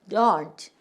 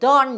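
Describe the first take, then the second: First: The final t sound is clearly pronounced. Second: The final t sound is nearly silent. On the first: "이 영국 사람들은 요 트를 don't, don't 이렇게 발음을 해" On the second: "미국에서는 트를 거의 발음을 안 해. 그냥 don't 이래요"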